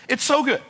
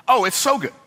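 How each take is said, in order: First: Even more delighted. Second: Bursting with delight, pitched up. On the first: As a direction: repeat it pitched higher still, relishing it. Repeats it even higher. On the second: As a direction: savour how good it is. Delighted exclamation about his idea. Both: Real, not acted.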